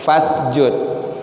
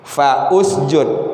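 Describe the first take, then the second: First: 'Fa' runs straight into 'sjud' with no vowel. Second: A separate 'u' vowel is heard after 'fa'. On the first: "u dhammah alifnya tidak dibaris" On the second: "kalau kita pisah, fa-nya fa usjud"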